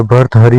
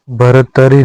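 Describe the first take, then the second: First: भर्तहरि with a ह and a short final i; correct form. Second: भरतरी ending in -तरी; wrong form. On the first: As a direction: say भर्तहरि, keeping the ह. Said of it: "भर्तहरि होता है". (सही उच्चारण भर्तहरि) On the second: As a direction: say भरतरी as the common slip. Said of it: "भरतरी नहीं होता है". (गलत उच्चारण भरतरी) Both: Shown as a demonstration.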